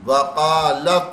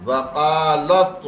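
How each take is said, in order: Both takes have the same delivery.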